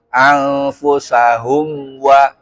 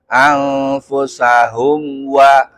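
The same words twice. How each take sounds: Both takes have the same delivery.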